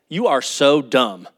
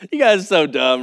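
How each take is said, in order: First: It is said in an angry tone. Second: It is said in a joking, playful tone.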